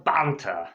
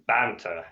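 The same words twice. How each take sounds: First: Banter in a put-on British accent. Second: Said in the usual way. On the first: Real, not acted. Teacher suggesting some small talk, British accent on "banter". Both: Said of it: "why did I say it in a British accent".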